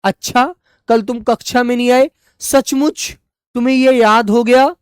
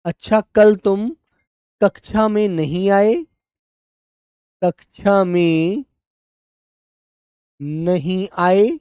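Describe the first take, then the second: First: Higher, lively surprised reading; surprised exclamation. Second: Sentence read slowly for copying; slow dictation. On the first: Teacher acting out example sentence, surprised and higher. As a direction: say it as if truly surprised. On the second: Teacher dictating example sentence, slow and even. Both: Shown as a demonstration. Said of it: "वहां पर हम अल्प विराम का प्रयोग करते हैं ऐसे".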